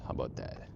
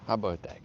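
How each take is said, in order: First: The question breathed out unvoiced, like thinking aloud; whispered. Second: Said in the usual way. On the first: Real, not acted. Streamer trying out the chat setting, whispered to himself. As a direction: test it quietly first, no voice at all.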